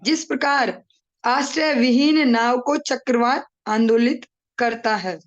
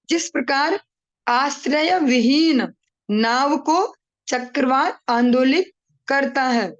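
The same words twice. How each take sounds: First: The line is read at a normal, quicker pace. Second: The line is read slowly and deliberately.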